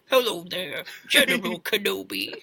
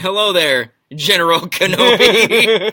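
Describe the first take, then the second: First: It is said in an imitation of Pooh's voice. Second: It is said in the speaker's normal voice.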